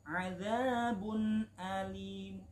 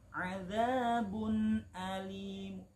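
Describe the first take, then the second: The two takes are said the same way.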